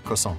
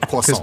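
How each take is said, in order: First: It is pronounced with an English accent. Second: It is pronounced with a French accent. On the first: "But I don't say it like a Frenchman" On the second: "Tolkien wouldn't say it croissant"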